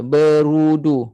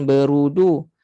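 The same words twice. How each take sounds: First: BERUDU slow, with heavy RU; thick ru. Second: BERUDU with light RU; thin ru. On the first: Teacher models berudu, thick ru. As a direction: raise tongue back for RU in berudu. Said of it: "bunyi ru yang tebal". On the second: Teacher shows the wrong berudu, thin ru. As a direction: keep the RU of berudu unthickened. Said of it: "bukan berudu". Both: Shown as a demonstration.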